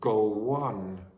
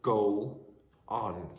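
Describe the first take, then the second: First: A W sound is added between the words. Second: No sound is added between the words.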